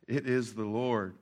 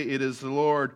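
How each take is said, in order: First: "It is the Lord" said low, soft and slow; hushed awe. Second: Said in the usual way. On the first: Retold or imitated. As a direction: breathe it out in quiet wonder. Disciple's awed realisation.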